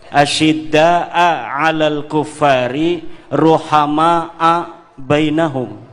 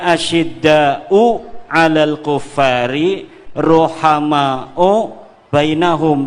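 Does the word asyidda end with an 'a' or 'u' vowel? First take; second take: a; u. First: The key words end in an 'a' vowel. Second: The key words end in a 'u' vowel. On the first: The words describe a state, praising them. "Rohama menurut Syekh Nawawi bisa dibaca dengan nasab. Asyidda juga dibacanya nasab" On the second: The words are the predicate of the sentence. "Yang biasanya kan dibacanya"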